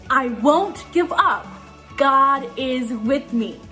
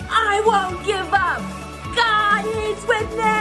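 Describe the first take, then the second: First: It is said in a plain speaking voice. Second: It is roared loudly like a lion.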